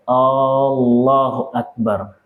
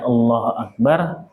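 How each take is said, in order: First: One vowel is noticeably drawn out. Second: All the vowels are kept short. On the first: It asks whether God is the greatest. The speaker calls it wrong. "memanjangkan yang seharusnya tidak dipanjangkan" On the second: It declares that God is the greatest. The speaker calls it right.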